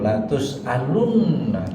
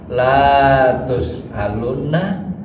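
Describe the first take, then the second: First: The first vowel 'la' is held short. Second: The first vowel 'la' is drawn out long. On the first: It expresses certainty. The speaker calls it right. "Yang dibacanya yang pendek" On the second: The meaning becomes different. The speaker calls it wrong. "kalau kita bacanya kepanjangan"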